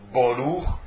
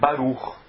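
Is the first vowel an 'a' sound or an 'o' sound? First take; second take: o sound; a sound. First: The first vowel is an 'o' sound. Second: The first vowel is an 'a' sound. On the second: This is the modern Hebrew pronunciation. "no hebraico moderno é Baruch"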